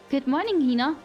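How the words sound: It is said in an imitation of Hina's voice.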